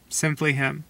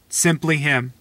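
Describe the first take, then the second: First: Quietly repeated; soft echo. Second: Said in the usual way. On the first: Real, not acted. Echoed softly.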